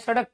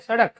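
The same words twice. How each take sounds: First: The middle consonant is a plain, ordinary d sound. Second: The middle consonant is flapped with a quick jerk. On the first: "जब भी हम डे का प्रयोग कर रहे हैं नॉर्मली" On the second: "एकदम झटके के साथ इसका उच्चारण किया"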